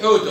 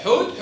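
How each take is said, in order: First: حوت said as "hootun"; damma tanween. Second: حوت stopped on t; sukun ending. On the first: Teacher summarizes open taa, حوت ending in -un. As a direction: add -un to حوت. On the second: Teacher summarizes open taa, حوت with bare t. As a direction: say حوت with no final vowel. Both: Shown as a demonstration. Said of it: "تاء وتاء".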